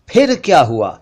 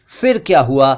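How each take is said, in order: First: फिर as p-hir; aspirated ph. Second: फिर said with an f; mispronounced ph as f. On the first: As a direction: pop the lips on फिर. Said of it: "ये इस तरह बोलना चाहिए". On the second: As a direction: say फिर as "fir". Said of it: "जबकि असल में ये इस तरह बोलना चाहिए". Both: Shown as a demonstration.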